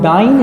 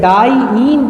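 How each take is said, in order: First: It is said run together as one word. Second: It is said as two separate parts. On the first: The speaker calls it wrong. "डाइन नहीं कह रहे हैं" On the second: The speaker calls it right. "डाई ईन कह रहे हैं बाबू"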